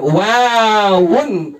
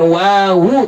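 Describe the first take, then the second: First: WAWUN stretched slowly, with -UN sounded; full ending. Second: WAWU in two syllables, ending on an open U; wrong reading. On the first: Teacher slipping while correcting the class, full ending. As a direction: hold the WA of WAWUN, then add -un. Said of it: "Jadi bukan wawun". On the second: Teacher showing students what not to say, wrong reading. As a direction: add an extra -u to WAWU, without N. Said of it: "eh, bukan wawu". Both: Shown as a demonstration.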